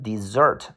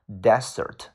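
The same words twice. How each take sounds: First: The stress is on the second syllable. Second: The stress is on the first syllable. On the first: It means to abandon something. "如果你读成desert，它的意思叫做把什么什么东西去抛弃" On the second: It means a dry sandy region. "desert 叫沙漠"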